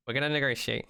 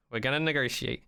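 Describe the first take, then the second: No difference in how they are said.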